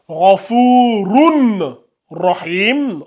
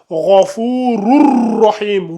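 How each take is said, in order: First: The final n is pronounced clearly before r. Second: The final n merges into a doubled r. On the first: The speaker calls it wrong. "on va pas lire ça Rafurun Rahim" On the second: The speaker calls it right. "On va faire la fusion entre le tanwin et le ra"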